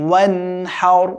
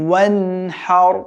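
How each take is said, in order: No difference in how they are said.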